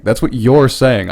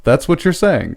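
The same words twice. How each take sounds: First: Slower, with "you're" drawn out in full; "you're" said as a full, stressed "yor". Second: Said in the usual way. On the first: Real, not acted. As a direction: lean firmly on "you're" to pin it on them. Repeats it, pinning claim on listener.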